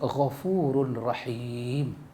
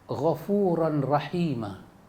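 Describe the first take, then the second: First: The phrase ends on the consonant 'm'. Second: The phrase ends on a final vowel sound. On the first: The speaker calls it wrong. "Bermakna dia buang alif" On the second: The speaker calls it right. "yang sepatutnya dibaca"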